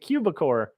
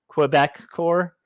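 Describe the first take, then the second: First: It is said as one blended word. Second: It is said as Quebec plus core. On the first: The speaker calls it wrong. "I've been calling it Quebecor" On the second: The speaker calls it right. "it's actually Quebec Core"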